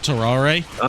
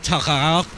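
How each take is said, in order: First: The name ends with a final vowel sound. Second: The name ends without a final vowel sound. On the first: The speaker calls it wrong. "not Tarare" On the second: The speaker calls it right. "they don't pronounce the e's on the end"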